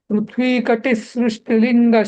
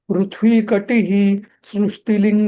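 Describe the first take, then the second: First: The final sound merges as 'sh' into the next word. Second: The final sound is a separate 'hi' before the next word. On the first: The speaker calls it right. "Flow मध्ये म्हणताना स श ख असं त्याचं रूपांतर होतं" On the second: The speaker calls it wrong. "असं असं नाही म्हणायचं"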